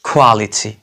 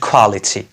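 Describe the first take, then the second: The two takes are said the same way.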